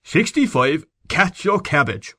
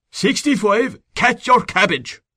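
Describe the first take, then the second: First: Put-on high, slow barked order in a thick country Irish accent; thick provincial command. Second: Put-on much higher, louder, slow shouted order in a thick country Irish accent; thick provincial command. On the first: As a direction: bark it like a country sergeant, Irish brogue thick. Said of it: "He assumed a thick provincial accent, and said in a tone of command". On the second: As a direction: yell it like a country sergeant at the depot, Irish brogue. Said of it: "He assumed a thick provincial accent".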